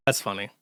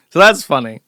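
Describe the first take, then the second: First: That's funny, softer and lower; quiet deadpan. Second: Loud, emphatic so that's funny. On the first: Host repeating his reaction, quiet deadpan. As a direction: repeat it dry and under your breath. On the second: Host reacting to replies, loud emphatic delivery. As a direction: say it out loud like a punchline. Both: Real, not acted.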